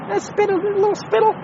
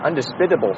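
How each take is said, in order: First: "Undisputable, little spittle" squeaked much higher, playful; silly high voice. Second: Said in the usual way. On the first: Pretend. Host mocking his own word in a squeaky voice. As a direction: chirp "Undisputable" in a high goofy sing-song. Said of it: "silly rhyme voice".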